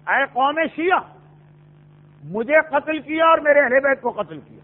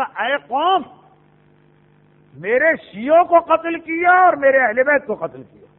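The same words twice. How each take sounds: First: قوم شیعہ run together, then a break before مجھے; breath only after شیعہ; pause after شیعہ. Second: Long break after قوم, then louder from میرے; breath after قوم, forceful میرے شیعوں کو; pause after قوم. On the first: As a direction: join قوم to Shia as one address, stop, then continue. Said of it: "سانس قوم کے بعد توڑ رہے ہیں کہ سانس شیعوں کے بعد". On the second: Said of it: "سانس قوم کے بعد توڑ رہے ہیں". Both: Shown as a demonstration.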